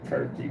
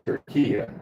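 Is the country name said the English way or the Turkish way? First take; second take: English; Turkish. First: The name is pronounced the usual English way. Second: The name is pronounced the local Turkish way. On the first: This is what English speakers call the country. "but we say Turkey" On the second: This is what the country calls itself. "or as they pronounce it"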